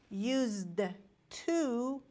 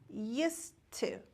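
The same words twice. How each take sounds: First: It is said strongly with a clear D sound. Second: It is said weakly with no D sound. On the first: The speaker calls it wrong. "we don't pronounce like used to. It is not a strong pronunciation" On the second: The speaker calls it right. "It's just used to. And we don't pronounce D in used to"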